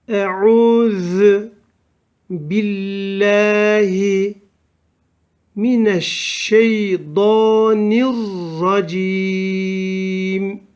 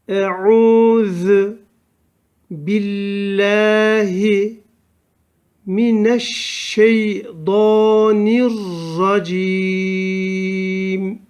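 No difference in how they are said.

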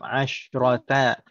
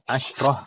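First: The word ends with a full final syllable. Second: The word ends cut short without the final vowel. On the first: The word is read with its full ending. "kalau kita baca harokatnya lengkap" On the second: The word is read at a pause. "kalau kita sukunkan"

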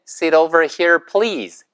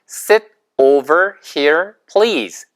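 First: The phrase is said quickly. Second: The phrase is said at a normal pace.

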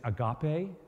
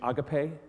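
First: The word is said the original Greek way. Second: The word is said the commonly heard way. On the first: The speaker calls it right. "The correct pronunciation is" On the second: The speaker calls it wrong. "You've probably heard the mispronunciation"

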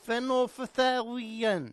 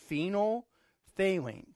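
First: The word is not said with four syllables. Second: The word is said with four syllables. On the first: The speaker calls it wrong. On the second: The speaker calls it right. "4 syllables"

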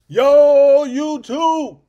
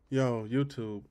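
First: It is said with loud, high energy. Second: It is said calmer, with lower energy.

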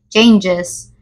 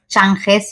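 First: The G is said like a Y. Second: The G is not said like a Y. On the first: The speaker calls it right. "La G suena como una Y" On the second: The speaker calls it wrong. "no es changes"

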